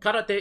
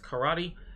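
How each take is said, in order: First: It is said with the Japanese pronunciation. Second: It is said with the English pronunciation. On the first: The speaker calls it right. "Karate is karate" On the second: The speaker calls it wrong. "most commonly mispronounced as karate"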